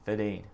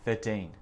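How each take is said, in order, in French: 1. Le son R dans « thirteen » est omis. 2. Le son R dans « thirteen » est omis.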